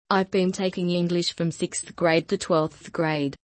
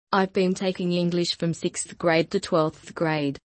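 Both takes have the same delivery.

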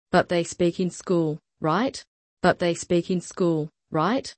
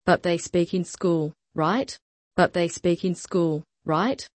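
No difference in how they are said.

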